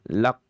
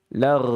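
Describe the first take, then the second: First: The consonant is stopped hard with a bounce. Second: The consonant vibrates like a trill. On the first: "dalam kondisi syiddah, lak atau qalqalah" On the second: "Bukan juga dengan cara getaran"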